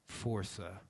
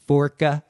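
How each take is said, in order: First: The c is said as an s sound. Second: The c is said as a hard k sound. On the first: The speaker calls it right. "Force with an A" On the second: The speaker calls it wrong. "they're like"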